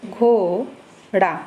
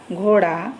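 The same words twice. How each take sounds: First: घोड़ा drawn out very slowly, the ओ held long; slow demo reading. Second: Said in the usual way. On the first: Shown as a demonstration. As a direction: stretch घोड़ा slowly for the class. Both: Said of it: "इसको हम पढ़ेंगे".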